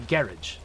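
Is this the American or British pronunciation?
British. It is said the British, English-like way. "English people say garage instead, which is like a very Englishy way"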